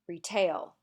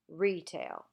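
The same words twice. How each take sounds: First: The stress is on the second syllable. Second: The stress is on the first syllable. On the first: The speaker calls it wrong. "We don't say" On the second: The speaker calls it right. "you naturally stress the first syllable"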